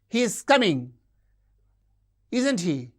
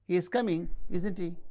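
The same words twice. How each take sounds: First: The tag ends with a high falling tune. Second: The tag ends with a low rising tune. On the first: The speaker demands agreement. "if you use a high fall, demanding agreement" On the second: The speaker is asking for information. "asking for information"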